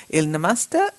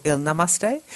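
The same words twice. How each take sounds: First: "Namaste" rhyming its end with "pasta"; "Namaste" as nuh-MAS-tuh, unstressed ending. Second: "Namaste" rhyming its end with "day"; "Namaste" as NUH-muh-stay, full final vowel. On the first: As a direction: say "Namaste" with a weak final "uh". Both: Shown as a demonstration. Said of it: "or Il Namaste".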